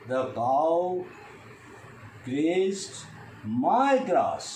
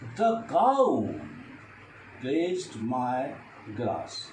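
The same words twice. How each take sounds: First: The stress falls on the word my. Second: The stress falls on the word cow. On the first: It was not anybody else's grass. "I stress on my" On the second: No other animal but the cow did it. "If I stress the cow"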